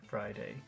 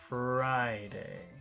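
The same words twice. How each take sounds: First: The first syllable is short and plain. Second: The first syllable is lengthened and emphasized. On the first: "Normal Friday" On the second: "Intonation Friday"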